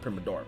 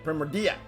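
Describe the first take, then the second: First: The middle sounds like ma-DOR-a. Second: The middle sounds like MOR-di-a. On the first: The speaker calls it wrong. "not Primadora" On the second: The speaker calls it right.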